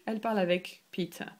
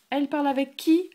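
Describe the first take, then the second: First: Said in the usual way. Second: Qui lifted higher and louder, quick; quick question up on qui; rising question. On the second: Shown as a demonstration. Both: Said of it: "You say".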